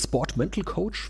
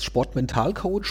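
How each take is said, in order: First: The word is pronounced with English sounds. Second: The word is pronounced with German sounds.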